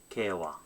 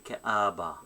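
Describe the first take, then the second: First: The middle consonant is a w sound. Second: The middle consonant is a b sound. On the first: This is how native speakers say it. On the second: This is how speakers of another language say it.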